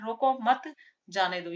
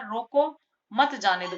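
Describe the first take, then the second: First: There is a pause right after 'mat'. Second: There is a pause right after 'roko'. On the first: Do not stop him, let him go. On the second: Stop him and do not let him go.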